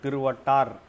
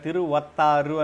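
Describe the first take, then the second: First: The name ends with a final consonant sound. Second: The name ends with a final vowel sound. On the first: The speaker calls it right. "రా రూ కూడా ఉండదు, తిరువట్టార్ అంతే దాని ఉచ్చారణ" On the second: The speaker calls it wrong. "ఇక్కడ తిరువత్తారు అని ఉంది"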